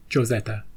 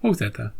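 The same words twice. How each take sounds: First: "Josetta" starting with an English J sound; English J pronunciation. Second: "Josetta" starting with an H sound; Spanish J pronunciation. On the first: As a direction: say "Josetta" with a hard J, as in Joe. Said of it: "or Josetta". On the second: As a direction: say "Josetta" as Ho-setta, the alternative reading. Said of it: "It's called". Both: Shown as a demonstration.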